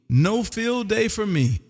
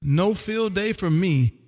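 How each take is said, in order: Both takes have the same delivery.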